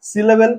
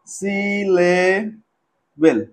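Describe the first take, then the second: First: Said in the usual way. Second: "syllable" drawn out very slowly, piece by piece; broken into syllables. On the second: Shown as a demonstration. Teacher showing students what a syllable is, "syllable" slowly broken up. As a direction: stretch "syllable" with gaps between syllables. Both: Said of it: "ছোট ছোট টুকরো করে ভাঙবো".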